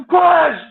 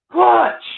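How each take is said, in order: First: High, loud urging push, a bit more forceful; shouting push again. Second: High, loud cheer of push, like a coach at the finish line; shouting push. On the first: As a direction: yell the word out to urge her on. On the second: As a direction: yell it as if she can hear you. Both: Retold or imitated. Coaching birth from car.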